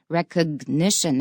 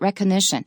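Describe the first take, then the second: First: The G sound in the middle is clearly pronounced. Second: The G sound in the middle is dropped. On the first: The speaker calls it right. "那个 G 要发音。" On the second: The speaker calls it wrong. "not recognition"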